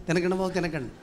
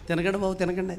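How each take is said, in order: The two takes are said the same way.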